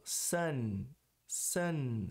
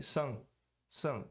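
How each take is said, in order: First: Sun com N final claro e segurado; língua no palato no fim de sun; N pronunciado. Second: Sun soando como "sung"; N não pronunciado. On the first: (sun com N bem pronunciado) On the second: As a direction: deixe o fim de sun nasal, lá atrás. (sun sem o N final) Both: Shown as a demonstration. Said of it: "Se eu não pronunciar o N".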